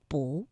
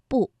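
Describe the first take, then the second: First: "不" said alone as a rising bú, softly; 不 in second tone. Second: "不" said alone as a falling bù; 不 in fourth tone. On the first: Teacher models the tone for learners, "不" softly rising bú. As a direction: lift "不" from low in a second tone. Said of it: "我们读了二声". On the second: Teacher models the tone for learners, "不" falling bù. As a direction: drop "不" in a fourth tone. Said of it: "不读四声". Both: Shown as a demonstration.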